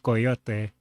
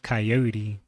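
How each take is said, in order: First: The word is said with Spanish pronunciation. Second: The word is said with English pronunciation. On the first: "the Spanish pronunciation is coyote" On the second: "the English pronunciation is coyote"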